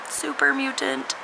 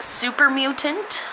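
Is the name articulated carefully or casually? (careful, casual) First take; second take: casual; careful. First: The syllables are articulated in a relaxed, casual way. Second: Each syllable is articulated very carefully and distinctly.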